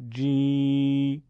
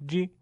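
First: "جی" held as a long, level jee; louder, stretched-out i on جی; long madd ya. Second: "جی" as a brief ji; short i with no stretch; short kasra. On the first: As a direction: draw جی out on one steady note. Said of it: "یه بار با یاء مدی". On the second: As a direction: cut the vowel of جی short. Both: Shown as a demonstration.

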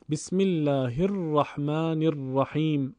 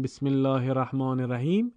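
First: "الرحمن الرحیم" slowly, each r long and trilled; correct tashdid on r. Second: "الرحمن الرحیم" with short single r sounds; tashdid dropped. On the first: Teacher modelling the right reading, slow with long doubled ر in "الرحمن الرحیم". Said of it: "حرف را اولش تشدید داره". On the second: Teacher showing the mistake, short undoubled ر in "الرحمن الرحیم". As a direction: run past the ر in "الرحمن" and "الرحیم" without doubling. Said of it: "اشتباهه". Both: Shown as a demonstration.

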